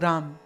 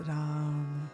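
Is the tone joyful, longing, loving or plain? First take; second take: plain; loving. First: It is said plainly, without feeling. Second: It is said warmly, with love.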